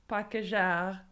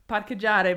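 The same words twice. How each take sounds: First: It is said with a French accent. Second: It is said with an Italian pronunciation. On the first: It is passed off as a French word. "just give it like a French accent" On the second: It is the Italian word. "he would say parcheggiare"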